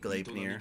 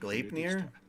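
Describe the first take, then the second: First: The vowels do not sound Japanese-style. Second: The vowels sound Japanese-style. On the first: "if I were to say it like that, it would be" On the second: "I read it by default with Japanese vowels"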